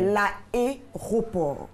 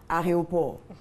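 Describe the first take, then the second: First: The é after the first a is clearly pronounced. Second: The é after the first a is blurred. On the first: The speaker calls it right. "c'est l'aéroport. Après le A, il y a un E, accent aigu" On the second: The speaker calls it wrong. "Il y a certaines personnes qui disent très souvent aéroport. Non"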